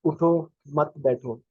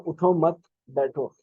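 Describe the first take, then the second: First: "उठो मत, बैठो" with the break after मत; slow, with a pause after "मत". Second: "उठो, मत बैठो" with the break after उठो; slow, with a pause after "उठो". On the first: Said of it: "For example अगर मैं किसी को कहता हूँ". ("मत" के बाद रुककर धीरे बोलना) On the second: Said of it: "लेकिन अगर उसको कहता हूँ". ("उठो" के बाद रुककर धीरे बोलना) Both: Shown as a demonstration.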